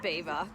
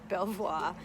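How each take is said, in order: First: It is said like the word beaver. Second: It is said as spelled, like Bel-vwar. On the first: The speaker calls it right. "it's actually not, it's Beaver" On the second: The speaker calls it wrong. "I was frowned upon because I pronounced it Belvoir"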